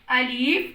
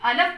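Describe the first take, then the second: First: The vowel after the L is a long ee. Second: The vowel after the L is a short a. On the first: "अगर हम इसको अलीफ पढ़ेंगे तो ये साउंड भी गलत है" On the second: "यानी अलिफ को जब हम अलफ पढ़ेंगे... ये साउंड गलत है"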